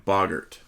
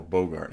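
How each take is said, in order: First: Bogart said with short o, BOG-urt; first pronunciation. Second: Bogart said with long o, BOH-gart; alternative pronunciation. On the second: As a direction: say Bogart to start like "beau". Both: Shown as a demonstration. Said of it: "however you pronounce it".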